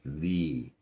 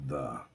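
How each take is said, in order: First: The vowel is a long ee. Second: The vowel is a short uh. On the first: The speaker calls it right. "long e" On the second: The speaker calls it wrong. "not the"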